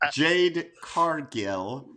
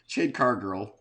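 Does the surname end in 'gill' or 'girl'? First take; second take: gill; girl. First: The surname is carefully said ending in 'gill'. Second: The surname is said ending in 'girl'. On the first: The speaker calls it right. "Let me let me enunciate" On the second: The speaker calls it wrong. "You said car girl too"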